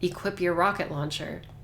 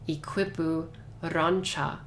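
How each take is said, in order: First: It is said in a plain English accent. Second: It is said in a Japanese accent.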